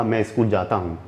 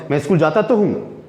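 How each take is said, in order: First: Said in the usual way. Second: Mildly irritated, stress on तो; a touch of annoyance. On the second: Shown as a demonstration. Asked again, teacher answers mildly annoyed. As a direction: lean on तो with mild annoyance. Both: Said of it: "मुझे थोड़ा सा गुस्सा है".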